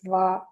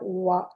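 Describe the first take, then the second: First: The consonant is a V with flat lips. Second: The consonant is a W with rounded lips. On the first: The speaker calls it right. "Like your lips are like flat, like this" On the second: The speaker calls it wrong. "It's not Va. You don't have to bring it together like this"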